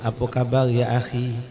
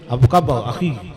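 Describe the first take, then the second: First: It is said in a gentle, soft tone. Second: It is said in a harsh, angry tone.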